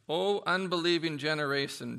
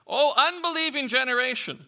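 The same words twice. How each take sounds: First: Said in the usual way. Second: Higher and louder, a scolding cry; loud exasperated rebuke. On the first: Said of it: "and he says, "O unbelieving generation". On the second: Acted. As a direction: scold the whole crowd. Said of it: "O unbelieving generation," Jesus replied".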